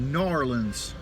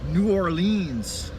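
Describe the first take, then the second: First: The name is squeezed into two clipped syllables. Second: The name is said in full, all syllables clear.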